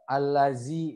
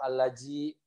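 First: The middle consonant is a buzzing z. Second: The middle consonant is a j sound. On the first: "nyasai ke huruf zai" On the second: "atau alaji"

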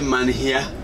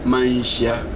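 First: The middle consonant is a plain h sound. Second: The middle consonant is an sh sound. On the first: The speaker calls it wrong. "Don't say Manhia" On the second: The speaker calls it right. "So H-Y is Manshia"

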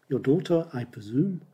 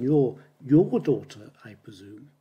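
First: The stress falls on the words I presume. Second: The stress falls on the word your. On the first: It is just a simple guess. "And there you put the stress on, I presume" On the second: It is your daughter, not someone else's. "So you have to put the stress on your daughter"

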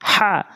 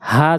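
First: The h is pushed from the middle throat. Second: The h is a plain, light breath. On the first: The speaker calls it right. "হাটা হলকের মাঝখান থেকে উচ্চারণ করতে হয়, বলতে হবে হা" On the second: The speaker calls it wrong. "হা যেন না হয়"

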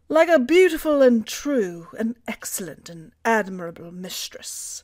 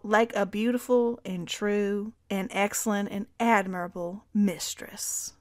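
First: It is spoken in a British accent. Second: It is spoken in a Southern American accent. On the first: "I'll do British" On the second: "The stop with the southern accent"

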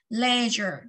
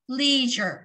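First: The word is said in a British pronunciation. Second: The word is said in an American pronunciation. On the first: "Một là chúng ta đọc là leisure" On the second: "Cách thứ hai chúng ta đọc là leisure. ... theo Anh Mỹ"

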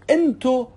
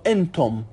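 First: The word ends without any final m sound. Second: The word ends with an audible final m sound.

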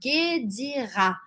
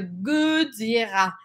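First: The vowel after G is a closed ay sound. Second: The vowel after G is a neutral uh sound. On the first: "Quando eu tenho o acento, eu vou falar" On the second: "Se eu não tivesse esse acento, eu falaria"

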